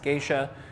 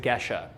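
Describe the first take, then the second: First: It sounds like the Japanese word geisha. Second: It does not sound like the Japanese word geisha. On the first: The speaker calls it wrong. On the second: The speaker calls it right.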